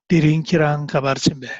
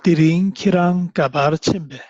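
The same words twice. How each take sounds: First: It is said a little faster. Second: It is said at a moderate reading pace.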